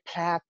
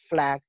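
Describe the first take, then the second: First: The word begins with a p sound. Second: The word begins with an f sound. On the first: The speaker calls it wrong. "We may say plaque" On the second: The speaker calls it right. "for example"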